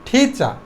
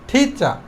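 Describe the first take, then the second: No difference in how they are said.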